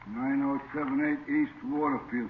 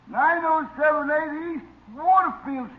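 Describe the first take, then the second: First: It is said in a natural, lower voice. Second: It is said in a raised, higher voice.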